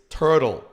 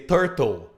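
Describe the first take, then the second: First: It is said with an American English accent. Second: It is said with a Brazilian Portuguese accent. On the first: The speaker calls it right. "it's turtle, right?" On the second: The speaker calls it wrong. "we Brazilians normally say turtle"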